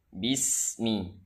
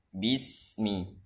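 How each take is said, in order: Both takes have the same delivery.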